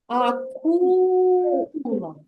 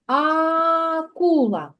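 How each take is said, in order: First: Акула very slow, second syllable ку stretched and lifted; teacher demo of the stressed syllable. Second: Акула stretched slowly, each sound drawn out; slow teacher demo of the sounds. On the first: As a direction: sing out акула with weight on ку. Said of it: "другий склад буде наголошений". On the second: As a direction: draw out акула so the А sounds are heard. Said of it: "промовляємо звук А". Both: Shown as a demonstration.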